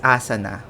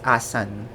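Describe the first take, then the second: First: The word ends with an audible final vowel. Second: The final vowel is silent, stress on the n. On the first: This is the usual Western way. "we are used to saying it as asana" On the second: This is how locals in India say it. "a silent A and stress on the letter N"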